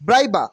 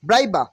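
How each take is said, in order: No difference in how they are said.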